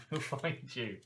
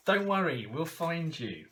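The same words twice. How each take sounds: First: Said in the usual way. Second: Higher, louder, then slowing on find you; reassuring promise. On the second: Pretend. Promising the kidnapped character card a rescue, loud and reassuring. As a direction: call out a promise to rescue her.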